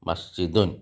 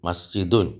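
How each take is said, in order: No difference in how they are said.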